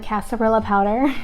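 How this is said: The word is said with an anglicized pronunciation. The speaker calls it wrong.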